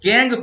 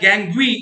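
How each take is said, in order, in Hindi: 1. शब्द एक सादी 'ng' ध्वनि पर खत्म होता है। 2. शब्द के अंत में एक जोड़ा गया 'wee' अक्षर है। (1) "गैंग प्रोनाउंसिएट कीजिएगा" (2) "मत बोलिएगा"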